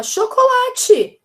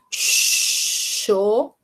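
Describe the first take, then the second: First: "Chocolate" whole, high and loud; child answering teacher. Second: "chocolate" extremely slow, long pauses between syllables. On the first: Acted. Child answers what word was said, high loud call. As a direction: call out "Chocolate" like a pupil who got it. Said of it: "E ela falar". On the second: Shown as a demonstration. Teacher gives a child pieces to join, separate slow syllables. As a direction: stretch "chocolate" into cho, co, la, te. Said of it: "se eu falar pra ela assim".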